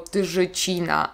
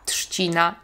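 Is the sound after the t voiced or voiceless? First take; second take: voiced; voiceless. First: The sound after t is a voiced zh. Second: The sound after t is a voiceless sh. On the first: The speaker calls it wrong. "nie mówimy" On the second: The speaker calls it right. "Tak jakby było tam szy"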